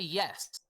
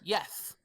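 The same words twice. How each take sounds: First: The word ends with a clear s sound. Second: The word ends with a lisped th sound. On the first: "she doesn't actually say yes" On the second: "Y E T H. She says it with a, a list"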